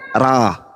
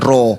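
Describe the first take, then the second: First: The vowel is an open a sound. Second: The vowel is a rounded o sound. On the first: The speaker calls it right. "Bacaannya A" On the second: The speaker calls it wrong. "bukan Ro"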